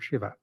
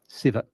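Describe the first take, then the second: First: The name begins with a 'sh' sound. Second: The name begins with an 's' sound. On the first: This is the common pronunciation of the god's name. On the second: This is the Southern family pronunciation of the name.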